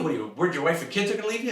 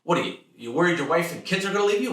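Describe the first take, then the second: First: Very fast higher blurted repeat; blurting father. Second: Fast, higher, louder blurted dad; blurting father. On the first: Father repeating blunt question, even faster. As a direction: fire it off even quicker. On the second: Father blurting fear at worried son, fast high loud. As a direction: rattle it off tactlessly. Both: Retold or imitated. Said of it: "blurt things out like".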